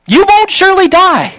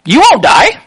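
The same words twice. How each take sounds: First: Won't pushed higher and stressed, the rest falling away; serpent's lie, with the word won't driven home. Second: Said in the usual way. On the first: Retold or imitated. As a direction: lean hard on the word won't. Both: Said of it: "Satan says exactly his opposite".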